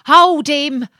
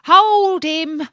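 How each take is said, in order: First: Higher, louder yell to the chips of wood; a water rat yelling after the boat; rat's cry. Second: Even higher, loud yell repeated; a water rat shrieking to the straw; rat's cry. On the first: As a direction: shout for them to stop him. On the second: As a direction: keep yelling after the fleeing boat. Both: Acted. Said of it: "as he cried to the chips".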